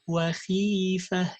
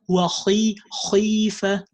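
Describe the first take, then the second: First: The kha is made only lightly heavy. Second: The kha is made exaggeratedly heavy. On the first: The speaker calls it right. "No, it's وخيفة" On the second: The speaker calls it wrong. "It's not وخي خيفة"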